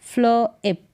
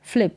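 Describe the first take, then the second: First: फ्ल इप in two parts; sounded out. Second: Said in the usual way. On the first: Shown as a demonstration. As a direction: separate फ्ल from इप. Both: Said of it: "फ्ल होगा".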